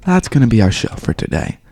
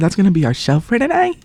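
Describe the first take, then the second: First: It is said in a dignified, composed manner. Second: It is said in an undignified, youthful manner. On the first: The speaker calls it right. "Now, I say it with dignity" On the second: The speaker calls it wrong. "See how I sounded there?"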